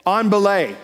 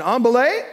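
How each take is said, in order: First: Called out, slightly higher and louder; firm call with falling end on "belay"; climber's call. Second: "On belay" called higher, rising on "belay"; questioning. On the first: Climber calls down to the belayer, called out. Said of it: "and they say". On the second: Climber asks the belayer if ready, questioning. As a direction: lift the end of "belay" into a question. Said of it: "it's a question". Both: Retold or imitated.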